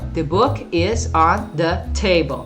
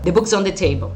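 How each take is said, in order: First: The sentence is spoken very slowly. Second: The sentence is spoken quickly. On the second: "Ele fala rápido"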